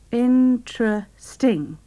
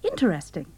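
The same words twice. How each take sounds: First: The word is said with three syllables. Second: The word is said with four syllables. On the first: "3 syllables" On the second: "Some people say interesting"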